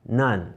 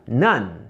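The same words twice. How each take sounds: Both takes have the same delivery.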